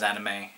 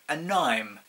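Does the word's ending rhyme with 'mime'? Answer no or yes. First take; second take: no; yes. First: The ending does not rhyme with 'mime'. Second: The ending rhymes with 'mime'. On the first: The speaker calls it right. "I didn't pronounce it as anime" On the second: The speaker calls it wrong. "I pronounced it as anime"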